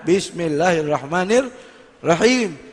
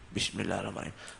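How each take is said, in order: First: The phrase is said aloud, clearly audible. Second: The phrase is said softly, almost silently. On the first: The speaker calls it right. "bismillahnya harus dibaca jahron" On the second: The speaker calls it wrong. "rupanya dipelanin. Jangan"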